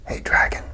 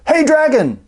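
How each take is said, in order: First: It is whispered very softly. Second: It is shouted very loudly.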